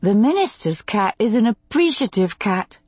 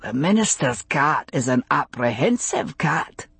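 First: Higher woman's voice, lilting word-game answer; higher, lightly voiced female character; woman's game reply. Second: Lightly voiced male character, playful word game; a hint of a man playing along; Roger's voice. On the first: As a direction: answer him playfully in a higher voice. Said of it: "she replied". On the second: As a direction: offer it as a lightly acted man's turn in a game. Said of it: "Roger suggested". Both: A narrator's reading.

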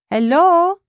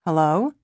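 First: High, loud, questioning hello; calling out. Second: Said in the usual way. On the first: A narrator's reading. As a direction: call HELLO to someone in another room, pitched up at the end. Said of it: "a strange voice calls".

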